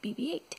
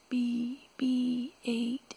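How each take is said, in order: First: The name is said at normal quick speed. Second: The name is drawn out slowly.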